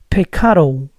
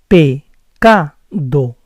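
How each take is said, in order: First: The P and C are strong, ending in O. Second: The P and C are soft, clear D. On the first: The speaker calls it wrong. "I pronounce P and C too strong" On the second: The speaker calls it right. "It has to be like this"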